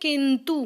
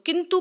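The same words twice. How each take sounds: First: The final vowel is long. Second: The final vowel is short. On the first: The speaker calls it wrong. "बड़ा ऊ बोलते हैं वो लोग" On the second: The speaker calls it right. "लिखते छोटा ऊ है"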